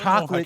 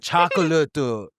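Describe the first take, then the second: First: It is said with ordinary English pronunciation. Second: It is said syllable by syllable, Japanese-style. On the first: The speaker calls it wrong. "you don't say" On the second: The speaker calls it right. "Like you say the the symbol syllables"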